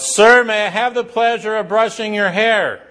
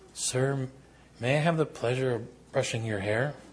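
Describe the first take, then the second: First: It is blurted out loudly. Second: It is said softly and demurely.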